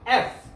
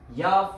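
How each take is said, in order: First: It starts with a plain e vowel. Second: It starts with a y sound before the vowel. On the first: The speaker calls it right. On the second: The speaker calls it wrong. "Wrong"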